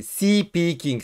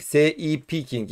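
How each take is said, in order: First: "Speaking" said the English way, one smooth cluster; English "Speaking" with no vowel before the s; English pronunciation. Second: "S E E peaking" said as si-piking, a vowel slipped before the sp; Turkish-accented speaking. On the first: Host to viewers, the English way of saying "Speaking". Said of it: "İngilizce'deki speaking gibi de değil". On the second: Host jokes to viewers about club name in Turkish accent. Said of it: "direkt Türk aksanıyla orada konuşacağız". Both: Shown as a demonstration.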